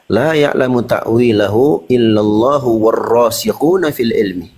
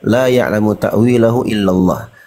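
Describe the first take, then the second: First: The recitation runs on past illallah without stopping. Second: The recitation stops right after illallah. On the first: God and those firmly grounded in knowledge know its interpretation. "Wakafnya di rasikhuna fil ilmi" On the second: Only God knows its interpretation. "Ada yang membaca la ya'lamu ta'wilahu illallah"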